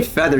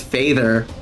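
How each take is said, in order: First: Said in the usual way. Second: "feather" said as "fey-ther"; first vowel of "feather" stretched to "ay". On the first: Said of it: "He doesn't say feather". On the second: Shown as a demonstration. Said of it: "like, fey instead of feather".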